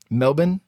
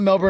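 First: It is said with an Australian pronunciation. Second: It is said with an American pronunciation. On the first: "If you're in Australia, Oz slang is what they call it. It's pronounced Melbourne" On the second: "We're not going to pronounce it that way"

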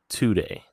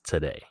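First: The O in the first syllable is fully pronounced. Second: The O in the first syllable is reduced. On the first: This is how people elsewhere say it. "not today" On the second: This is how lifelong locals say it. "everyone says it as today"

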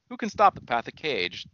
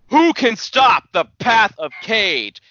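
First: It is said in a lowered, deep voice. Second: It is said in a higher voice.

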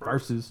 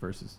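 First: The word is said in a dramatic, emphatic way. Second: The word is said in a plain, ordinary way. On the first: The speaker calls it right. "You have to say it like that too" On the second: The speaker calls it wrong. "It's not just versus"

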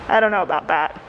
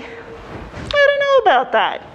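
First: The tone is firm, flat and closed. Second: The tone is light, hesitant and open. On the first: They do not want to pursue the idea. "maybe that's not the path that they want to go down" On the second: They are still open to the idea. "with a little shrug. And that could be a signal to you of like, they're not cut off to the idea"

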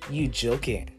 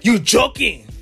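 First: It is said in a baffled tone. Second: It is said in an angry tone.

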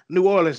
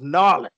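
First: The name is said fully as separate syllables. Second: The name is squeezed into two short syllables. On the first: The person has never been to the city. The speaker calls it wrong. "once you go to New Orleans, you don't say New Orleans no more" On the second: The person has been to the city. The speaker calls it right. "It becomes Narlins"

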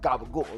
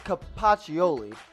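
First: It is said quickly in an Italian-American accent. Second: It is said plainly, with all syllables clear.

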